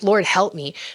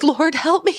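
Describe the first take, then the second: First: It is said earnestly, as a real plea. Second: It is said as a funny, joking sigh.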